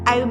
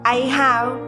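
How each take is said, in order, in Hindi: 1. शब्द जुड़कर एक ही अक्षर में बोले जाते हैं। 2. दो अलग शब्द, दोनों पूरी तरह बोले गए।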